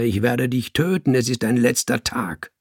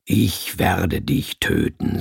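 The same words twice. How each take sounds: First: Firm, lightly raised threat; calling down. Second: Low, slow, controlled threat; deep, hard, calm. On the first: Cat threatens the man below, calling down. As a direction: call out the threat with restrained force. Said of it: "rief ich auf ihn nieder". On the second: Cat threatens its enemy, deep, hard and calm. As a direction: command it low and unhurried, like a punisher. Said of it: "tief und hart und ruhig wie die Stimme eines Mannes". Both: A narrator's reading.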